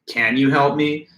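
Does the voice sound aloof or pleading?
aloof. The voice sounds aloof and sarcastic. The speaker does not really care. "you can sound aloof um, or sarcastic even"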